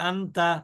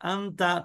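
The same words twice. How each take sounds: The two takes are said the same way.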